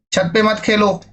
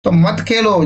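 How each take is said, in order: First: "छत पे मत खेलो" said gently, pitch up on "पे"; soft advice. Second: A mild telling-off; scolding. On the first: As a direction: coax a child kindly. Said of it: "प्यार से भी और". (प्यार से मना करना) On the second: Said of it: "फटकार से भी". (हल्की फटकार) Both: Shown as a demonstration.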